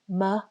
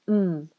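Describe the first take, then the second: First: The consonant is followed by a short uh vowel. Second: The consonant is said alone with no vowel. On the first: The speaker calls it wrong. "Many people will add an a sound, which we also call a schwa sound" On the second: The speaker calls it right. "focus on pronouncing just the phoneme"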